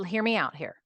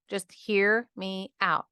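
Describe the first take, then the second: First: Said in the usual way. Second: Just hear me out, slowed right down, each word leaned on; slow it down and lean on every word of Just hear me out; slow emphatic plea. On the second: Real, not acted. Asking her listeners to stay, slow emphatic Just hear me out. Pleading with listener not to leave.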